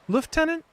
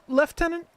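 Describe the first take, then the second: First: It is said the English way. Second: It is said the English way.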